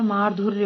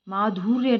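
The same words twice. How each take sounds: First: "माधुर्य" with short "dhur"; correct short u. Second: "माधुर्य" said "maadhoorya"; wrong long u. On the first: Teacher gives the correction, short-u "माधुर्य". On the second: Teacher rejects the mistake, long-u "माधुर्य". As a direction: stretch धु in "माधुर्य" to dhoo. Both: Shown as a demonstration. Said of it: "छोटा हुआ आता है".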